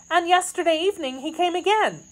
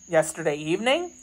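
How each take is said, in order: First: High, quick maid's voice; anxious maid. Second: Questioning man. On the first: Kitty telling of yesterday's visit, high and anxious. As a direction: add it quickly in a much higher pitch. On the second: D'Artagnan checking Kitty's news, questioning. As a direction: echo it quickly in an everyday pitch, questioning. Narrator voices D'Artagnan repeating it. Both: Acted.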